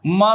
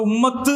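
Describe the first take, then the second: First: The word ends without any t sound. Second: The word ends with a pronounced t sound. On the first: The speaker calls it right. "ശരിക്ക് ഉമ്മ എന്നാണ് പറയാ" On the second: The speaker calls it wrong. "ഉമ്മത്ത് എന്ന് പറയൂല"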